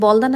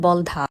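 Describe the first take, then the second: First: The middle d sound is plain, without breath. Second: The middle d sound is aspirated, with breath. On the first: The speaker calls it wrong. "অনেকেই এই বাগানটিকে বলদা নামে সম্বোধন করলেও" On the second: The speaker calls it right. "এর আসল উচ্চারণ বলধা"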